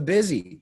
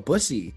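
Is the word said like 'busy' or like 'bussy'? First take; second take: busy; bussy. First: The word is said like 'busy'. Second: The word is said like 'bussy'. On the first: The speaker calls it wrong. "I was pronouncing it wrong" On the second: The speaker calls it right. "Now I know"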